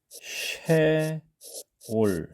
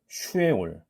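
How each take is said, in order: First: The opening is said as one syllable, she. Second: The opening is said as two syllables, shu-e. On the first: The speaker calls it right. "쉐 올 이렇게 하는 것이 아마 조금 더 자연스럽지 않나" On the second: The speaker calls it wrong. "단순화해서 슈라고 하게 되면"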